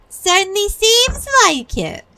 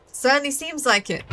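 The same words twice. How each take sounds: First: Much higher and louder, hammed up; exaggerated repeat. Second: Said in the usual way. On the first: Hammed repeat of same line.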